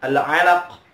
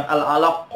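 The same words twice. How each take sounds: First: AL-ALAQ ending on a throaty q; correct deep q. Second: AL-ALAQ with a mistaken ending sound; wrong final consonant. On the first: Teacher shows the letter, deep final q. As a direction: finish "Al-alaq" far back in the throat. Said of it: "pakai kha". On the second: Teacher shows what to avoid, misarticulated ending. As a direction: say "al-alaq" as the faulty version. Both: Shown as a demonstration.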